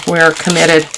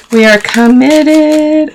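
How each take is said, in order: First: Said in the usual way. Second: Much higher and slow, stretching every word; mock-dramatic declaration. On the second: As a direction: proclaim "committed" like a grand vow, slowly.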